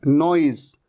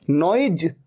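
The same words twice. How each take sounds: First: नॉइज ending in a buzzing z; teacher modelling noise; z sound. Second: नॉइज ending in a hard j; showing the mistake; wrong j sound. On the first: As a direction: finish नॉइज with a clear z. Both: Shown as a demonstration. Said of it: "नॉइज नहीं".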